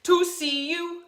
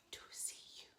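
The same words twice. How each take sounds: First: Sung line. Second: Soft whispered echo of the line. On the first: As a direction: sing it for them to echo. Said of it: "you'll repeat it back to me". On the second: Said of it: "like an echo". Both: Shown as a demonstration.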